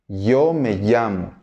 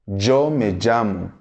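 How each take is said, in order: First: The ll is said like an English y. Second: The ll is said like a zh sound.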